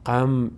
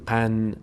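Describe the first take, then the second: First: The syllable ends with an m sound. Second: The syllable ends with an n sound. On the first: The speaker calls it right. "قم نمیگیم" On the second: The speaker calls it wrong. "نمیگیم قن"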